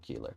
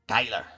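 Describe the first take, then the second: First: The first vowel sounds like 'ee'. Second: The first vowel sounds like 'eye'. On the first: The speaker calls it wrong. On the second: The speaker calls it right.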